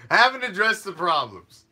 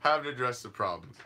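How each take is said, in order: First: Mocking loud. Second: Mocking quiet. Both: Mocking refrain, two takes.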